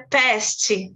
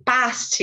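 First: "past" with a flat front a and a final t; English "past". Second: "past" with an open Portuguese a; past, Portuguese reading. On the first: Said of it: "em inglês é past". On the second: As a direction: say "past" as it would be read in Portuguese. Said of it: "como se a gente lesse o português". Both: Shown as a demonstration.

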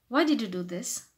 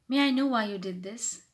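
First: Blunt workplace question; rude direct question. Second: Courteous, tactful inquiry; humble polite question. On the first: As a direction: ask for a reason bluntly. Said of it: "That will make you sound rude". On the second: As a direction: ask the reason without accusing. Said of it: "try to sound more humble". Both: Shown as a demonstration.

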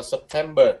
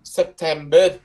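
First: "September" said the English way, falling at the end; plain English "September" with a weak last syllable; English pronunciation. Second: "September" with the last syllable lifted; Norwegian pronunciation. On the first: Teacher cites English for comparison, English-style "September". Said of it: "Tiếng Anh nó đọc là September". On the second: Teacher models Norwegian for students, "September" rising on the last syllable. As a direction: say "September" as sep-TEM-beh, rising at the end. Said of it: "Nó đọc là". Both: Shown as a demonstration.

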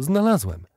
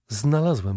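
First: Higher-pitched, delighted repeat; excited. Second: Said in the usual way. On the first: A narrator's reading. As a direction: announce the find with rising excitement. Repeats his discovery more excitedly.

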